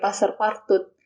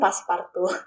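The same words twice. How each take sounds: First: The name is read as spelled, not French. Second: The name is said with French pronunciation. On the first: The speaker calls it wrong. "saya sebut sebagai Passepartout" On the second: The speaker calls it right. "dan bukan Passepartout"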